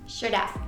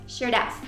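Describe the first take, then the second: First: The two words are joined into one contracted form. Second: The same.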